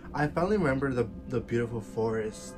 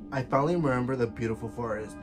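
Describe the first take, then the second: First: It is read in a sweet, theatrical storybook tone. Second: It is read in a plain, ordinary speaking tone. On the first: "like it's some like Disney ass like book" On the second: "let me try to get my tone back in"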